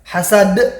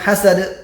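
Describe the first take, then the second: First: The final d is released thick and heavy. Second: The final d is released thin and light. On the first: The speaker calls it right. "Lebih tebal ya" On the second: The speaker calls it wrong. "Bukan hasad"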